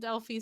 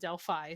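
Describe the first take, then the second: First: The name is said the Greek way. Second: The name is said the local Indiana way. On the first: The speaker calls it wrong. "the Greek pronounced it Delphi, so I've been pronouncing it Delphi" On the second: The speaker calls it right. "Indiana natives pronounce it Delphi"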